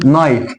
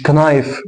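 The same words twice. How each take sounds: First: نايف starting straight on n; silent K. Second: كنايف with k sounded before n; K wrongly voiced. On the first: Teacher giving the correct word, silent K. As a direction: say نايف with no opening k. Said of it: "فبقولش الكي". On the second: Teacher showing what not to say, K sounded. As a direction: pronounce the k opening كنايف. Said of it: "مش كنايف". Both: Shown as a demonstration.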